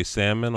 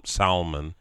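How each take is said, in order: First: "salmon" as SAM-un, silent l; first pronunciation option. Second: "salmon" as SAL-mun, l sounded; second pronunciation option. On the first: Asking which way the other says it, "salmon" as SAM-un. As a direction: say "salmon" without any l. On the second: Asking which way the other says it, "salmon" as SAL-mun. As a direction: say "salmon" with the l pronounced. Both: Shown as a demonstration. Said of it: "What do you say".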